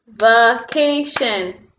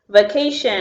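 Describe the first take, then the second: First: "vacation" very slow in three beats, va-ca-tion; split into syllables. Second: Said in the usual way. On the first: Shown as a demonstration. Teacher clapping syllables with pupils, "vacation" in three slow beats. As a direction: separate every syllable of "vacation", slowly and evenly. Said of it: "clap with me on the syllables".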